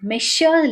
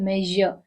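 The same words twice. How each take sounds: First: The middle consonant is a voiceless 'sh' sound. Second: The middle consonant is a voiced 'zh' sound. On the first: The speaker calls it wrong. "இது நான் ஷ் சொல்லல. மெஷர் இல்ல" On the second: The speaker calls it right. "இது மெஷர்"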